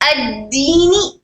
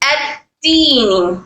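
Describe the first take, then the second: First: The consonant is a firm d with no air. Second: The consonant is released with air, like t. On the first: The speaker calls it right. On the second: The speaker calls it wrong.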